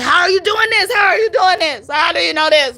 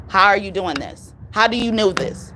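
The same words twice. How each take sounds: First: High, shouted, near crying; frantic shouted quote. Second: Said in the usual way. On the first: Retold or imitated. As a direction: shout it like a client losing it. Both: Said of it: "she said those words".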